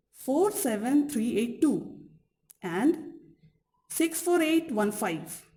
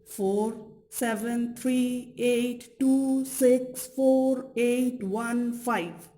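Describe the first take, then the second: First: Digits in two quick groups, falling on "two" and "five"; group "four, seven, three, eight, two", pause, then "six, four, eight, one, five"; two intonation units. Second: Level, evenly spaced digits from "four" down to a falling "five"; ungrouped digit sequence. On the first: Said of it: "can be divided into two memorizable intonation units". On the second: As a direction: read "four, seven, three, eight" on one even tone, digit by digit. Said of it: "a sequence of ten digits". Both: Shown as a demonstration.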